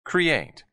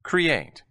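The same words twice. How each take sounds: The two takes are said the same way.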